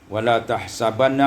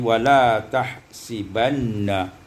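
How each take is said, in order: First: The vowel after the s is a. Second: The vowel after the s is i.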